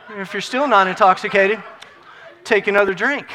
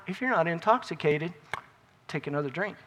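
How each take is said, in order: First: Louder push on "If you're still not intoxicated"; emphatic repeat. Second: Said in the usual way. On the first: Real, not acted. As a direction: repeat it forcefully, "take another drink" driven home.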